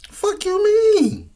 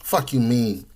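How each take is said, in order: First: Very high, slow, drawn-out squeak; squeaky mock voice. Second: Said in the usual way. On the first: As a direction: stretch it out in a squeaky falsetto. Repeated retort, mock high take.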